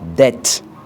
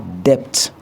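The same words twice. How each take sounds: First: No b sound is heard before the t. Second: A b sound is pronounced before the t. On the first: The speaker calls it right. "on dit debt" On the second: The speaker calls it wrong. "on ne dit pas"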